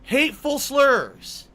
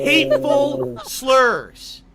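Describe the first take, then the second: First: Slow, louder outrage; explosive rage. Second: Slow, loud disbelief; explosive rage. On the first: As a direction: stretch it out, incredulous. Repeats accusation again. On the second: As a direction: spit the words out in rage. Repeats accusation in outrage. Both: Real, not acted.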